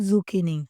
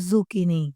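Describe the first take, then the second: Both takes have the same delivery.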